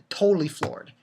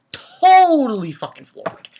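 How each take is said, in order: First: Said in the usual way. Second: Louder and higher, slow and punched; loud emphatic. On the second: Real, not acted. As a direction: hammer each word, floored by it.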